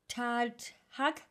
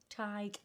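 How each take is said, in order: First: The name is said as two syllables. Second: The name is said as one syllable. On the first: The speaker calls it wrong. "if I didn't know how this was pronounced, I would be like" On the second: The speaker calls it right. "It's Tig, as in tiger"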